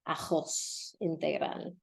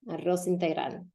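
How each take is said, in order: First: The R is made in the back of the throat. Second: The R is a trill made with the tongue tip.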